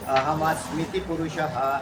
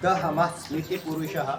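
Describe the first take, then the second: First: The phrase begins directly with a vowel. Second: The phrase begins with a linked d sound.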